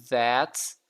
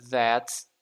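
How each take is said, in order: The two takes are said the same way.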